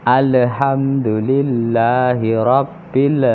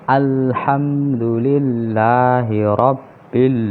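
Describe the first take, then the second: No difference in how they are said.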